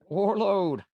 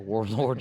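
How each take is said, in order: First: The second syllable is said as 'load'. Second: The second syllable is said as 'lord'. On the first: "it comes out load" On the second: "instead of the Warlord"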